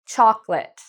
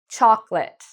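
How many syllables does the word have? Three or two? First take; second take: two; two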